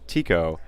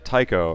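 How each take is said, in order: First: The first syllable sounds like 'tee'. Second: The first syllable sounds like 'tie'. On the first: This is how the other player says the name. "You pronounce it Tico" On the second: This is how the speaker says the name. "I say it Tycho"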